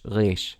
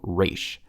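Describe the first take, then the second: First: The r is made in the back of the throat. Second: The r is a plain English-style r sound. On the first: "in Israel they go resh" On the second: "We sometimes we just go resh, but that's a very English thing to do"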